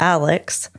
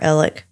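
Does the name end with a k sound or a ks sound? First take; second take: ks; k. First: The name ends with a ks sound. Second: The name ends with a plain k sound. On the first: This is the name read as written. "his name is spelled A-L-E-X, like Alex" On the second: This is how locals and the family say it. "he pronounces it himself as Alec"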